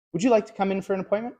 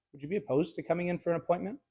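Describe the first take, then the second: First: Higher, faster eager plea, asking a favor; needy asking. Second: Softer, fast and laid back; nonchalant. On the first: Salesman on the phone pleading with a client for a visit. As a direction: sound like you're begging a favor. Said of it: "You can even hear it in my tonality". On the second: Salesman on the phone asking a client casually, nonchalant. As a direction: toss it off casually, no pressure. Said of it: "the other one is nonchalant". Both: Shown as a demonstration.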